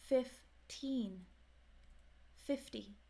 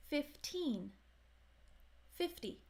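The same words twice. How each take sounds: The two takes are said the same way.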